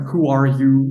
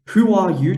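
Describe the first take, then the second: First: American accent. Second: Chanted, high, loud British-accented "Who are you?"; chanted, "Who are you?" shouted high in a British crowd accent. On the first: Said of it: "with a, an American accent just doesn't come out right". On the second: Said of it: "it doesn't sound right, though, if it's not with a British accent". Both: Shown as a demonstration.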